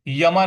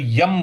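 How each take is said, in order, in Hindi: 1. शब्द के अंत में एक जुड़ा हुआ a स्वर है। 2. शब्द बिना स्वर के केवल m व्यंजन पर समाप्त होता है। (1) "यमा नहीं बोलेंगे" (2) "यम बोलेंगे"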